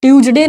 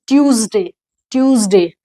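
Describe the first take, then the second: First: "ट्यूसडे" as tyooj-DE, j for z, short e; wrong pronunciation. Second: "ट्यूसडे" as TYOOZ-day with buzzing z; model pronunciation. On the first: Teacher showing the common mistake, "ट्यूसडे" as tyooj-de. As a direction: say "ट्यूसडे" with a j sound and hard d. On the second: Teacher correcting the class, "ट्यूसडे" said TYOOZ-day. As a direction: say "ट्यूसडे" with z and a falling glide. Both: Shown as a demonstration. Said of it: "ट्यूसडे नहीं".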